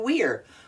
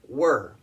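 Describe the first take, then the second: First: The vowel sounds like 'ear'. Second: The vowel sounds like 'er'. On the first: The speaker calls it wrong. "magic E rule, so it should be we're, but it's not" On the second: The speaker calls it right. "We pronounce it like a er, not a ear"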